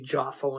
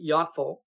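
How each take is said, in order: First: The name is pronounced with English sounds. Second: The name is pronounced with Hebrew sounds. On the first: "We say Jaffo in English" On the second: "but Jaffo"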